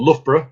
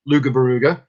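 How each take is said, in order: First: The name is said in its standard form. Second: The name is said garbled, with extra syllables. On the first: The speaker calls it right. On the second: The speaker calls it wrong.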